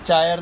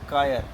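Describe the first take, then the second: First: The word begins with a 'ch' sound. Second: The word begins with a 'k' sound. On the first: The speaker calls it wrong. "चायर नहीं" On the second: The speaker calls it right. "सी एच is pronounced as क"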